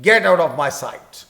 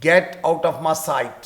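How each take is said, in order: First: Put-on loud, slow angry command to a child. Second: Said in the usual way. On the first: Shown as a demonstration. Teacher demos an angry line for students, loud and slow. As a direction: bark it out slowly, in anger. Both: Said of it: "تو یہ چونکہ غصے والا جملہ ہے".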